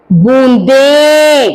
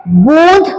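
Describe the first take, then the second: First: बूंदे stretched long with a clear nasal बूं and a long final े; clear slow pronunciation. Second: बूंद said short with a rising end; quick clear बूंद; short model word. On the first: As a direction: draw out बूंदे slowly and nasally. (बूंदे धीरे और नासिक्य उच्चारण से) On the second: (बूंद छोटा, उठते सुर में) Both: Shown as a demonstration. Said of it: "जैसे मैं उच्चा-, अ, शब्दों का उच्चारण कर रही हूं".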